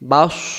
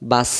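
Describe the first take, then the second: First: The s sound is made with rounded lips. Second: The s sound is made with unrounded lips. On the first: "মুখটা গোল হবে" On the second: "আর যদি সিন হতো এটা"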